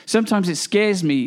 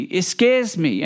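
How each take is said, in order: First: Said in the usual way. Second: Slow, weighty repeat of scares; slow it right down and let scares sink in. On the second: Real, not acted.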